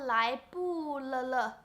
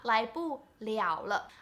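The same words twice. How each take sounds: First: Both final characters get the same pronunciation. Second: The final characters are read liao then le. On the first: The speaker calls it wrong. "they would be like, uh" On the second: The speaker calls it right. "the first character is pronounced 了 ... the next word is the same character but pronounced as le"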